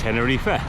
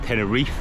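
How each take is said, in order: First: The name is said with a Spanish pronunciation. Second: The name is said with an English pronunciation. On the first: This is how the locals say it. "the locals call it Tenerife" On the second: This is how English speakers say it. "first language English speaking people will probably call it Tenerife"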